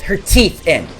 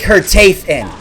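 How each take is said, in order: First: "teeth" said properly as "teeth", long ee; corrected teeth. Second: "teeth" said like "tayth", rhyming with faith; slip, say "teeth" as "tayth"; mispronounced teeth. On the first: Correcting his slip, "teeth" with a long ee. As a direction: fix it to a clean "teeth". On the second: Retelling her threat, "teeth" said as "tayth". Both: Retold or imitated. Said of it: "not her teeth, her teeth in".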